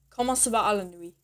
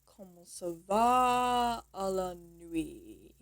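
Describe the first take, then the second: First: Said in the usual way. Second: Drawn-out, soft teaching take at half speed; slow demonstration. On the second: Shown as a demonstration. Teacher showing how to say "how are you tonight", slow demonstration. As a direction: stretch "va" and "nuit" out slowly and softly. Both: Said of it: "this is how you'll say".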